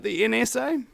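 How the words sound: It is said in a put-on Mexican accent.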